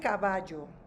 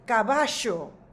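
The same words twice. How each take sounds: First: The double L is a soft y-like sound. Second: The double L is a strong, buzzing sound. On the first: This is the speaker's own regional pronunciation. "like soft j" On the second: This is how people in Argentina say it. "very strong"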